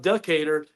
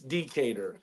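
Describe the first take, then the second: First: The first vowel is reduced and unclear. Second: The first vowel is clearly and fully pronounced. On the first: The speaker calls it wrong. "it's not Decatur" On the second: The speaker calls it right. "you got to make sure you you enunciate the e"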